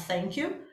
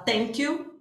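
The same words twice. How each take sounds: First: "thank you" with a soft TH, tongue between the teeth; proper TH. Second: "thank you" said as "tank you", with a hard T; teacher showing the student's error: "thank you" with a plain T sound; T instead of TH. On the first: Teacher giving students the correct version: "thank you" with TH. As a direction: clear English TH at the start of "thank". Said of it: "ao invés de falar thank you". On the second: Teacher imitating a Brazilian student, "thank you" with a T. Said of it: "acontece do aluno usar um som de T". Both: Shown as a demonstration.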